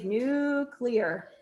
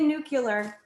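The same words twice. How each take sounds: First: The middle sounds like 'clee', as in clear. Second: The middle sounds like 'cu', as in nucular. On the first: The speaker calls it right. "Now say nuclear" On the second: The speaker calls it wrong. "Don't say nuclear. I'll disown you"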